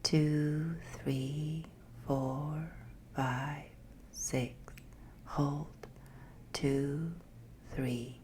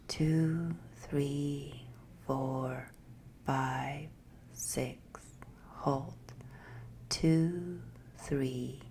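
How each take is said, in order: Both takes have the same delivery.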